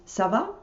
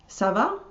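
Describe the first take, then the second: The two takes are said the same way.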